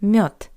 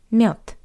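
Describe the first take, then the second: First: The final consonant is a voiceless T. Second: The final consonant is a voiceless T.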